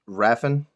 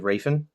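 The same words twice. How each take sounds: First: The first vowel is a short 'a' sound. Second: The first vowel is a long 'ay' sound. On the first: This is how someone else says the name. "I think Baltimore says Raffen" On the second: This is how the presenter says the name, like Raven. "I say Raffen because you're only one letter differential from the name Raven"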